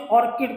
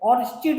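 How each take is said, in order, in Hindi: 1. बीच का व्यंजन 'k' की ध्वनि है। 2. बीच का व्यंजन 'ch' की ध्वनि है। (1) "ऑर्किड पढ़ते हैं" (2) "इसको ऑर्चिड नहीं पढ़ते"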